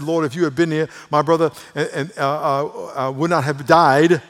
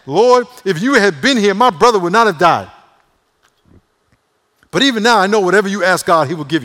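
First: Said in the usual way. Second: High, very loud sassy reproach; attitude. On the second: Acted. Martha confronting Jesus over her brother, with attitude. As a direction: act her out neck-rolling and indignant, at full volume. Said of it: "with an attitude, rolling her neck".

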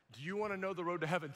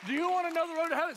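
First: Fast retold invitation at normal pitch; brisk, contained acted question; quick restrained question. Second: High, loud, very fast retold invitation; excited rapid question. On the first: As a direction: rattle off the invitation without raising the voice. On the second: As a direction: race through it at a high pitch. Excited rapid repeat, next person.

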